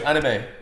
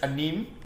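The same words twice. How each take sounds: First: The final E carries no accent. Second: The final E carries an accent. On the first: The speaker calls it right. "There's no accent on the E" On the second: The speaker calls it wrong. "I used to refer to it as anime"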